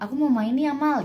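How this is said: The phrase ends with a final, closing tune. The sentence ends here. "Itu kan su- pasti sudah titik kan"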